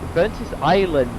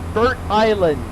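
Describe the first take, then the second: First: The name is split as Burntis plus land. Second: The name is split as Burnt plus island. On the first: The speaker calls it wrong. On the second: The speaker calls it right.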